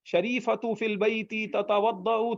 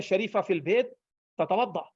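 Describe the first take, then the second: First: Slow reading with every vowel ending, شریفۃ said as شریفتُ and تتودع said as تتودعُ; full case endings. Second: شریفہ said with no case ending and تتودع ending on a plain a, no final vowel; pause at word ends. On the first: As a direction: read شریفۃ فی البیت تتودع slowly with all its endings, like a textbook. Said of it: "اگر آپ اس طرح عربی". (پورے اعراب کے ساتھ آہستہ پڑھنا، شریفۃ کو شریفتُ اور تتودع کو تتودعُ بولنا) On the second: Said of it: "اب وہ تو یوں بولتے ہیں". (وقف کر کے بولنا، شریفہ اور تتودع بغیر اعراب کے) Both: Shown as a demonstration.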